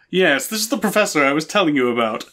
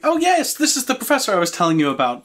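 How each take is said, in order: First: It is in the character's usual voice. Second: It is not in the character's usual voice.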